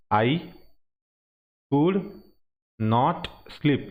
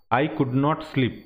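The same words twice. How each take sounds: First: I, could, not sleep with long pauses between; word by word. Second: Slow dictation. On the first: Teacher breaks sentence apart for students, pausing. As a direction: break the sentence into separate words. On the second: Teacher dictating to students, very slow. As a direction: read I could not sleep very slowly, leaning on not. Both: Shown as a demonstration.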